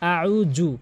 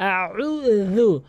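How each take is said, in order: First: The middle consonant is a 'j' sound. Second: The middle consonant is a 'dh' sound. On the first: The speaker calls it wrong. "এখানে অধিকাংশ লোক আউ জু বলে" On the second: The speaker calls it right. "জিহ্বার আগা এবং দাঁতের আগার সঙ্গে লাগিয়ে"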